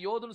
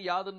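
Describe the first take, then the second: First: The vowel is an 'o' sound. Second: The vowel is an 'a' sound. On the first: The speaker calls it wrong. "யோத்னு சொல்ல மாட்டேன்" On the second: The speaker calls it right. "யாத்னு தான் சொல்லுவேன்"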